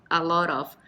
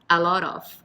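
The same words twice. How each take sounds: No difference in how they are said.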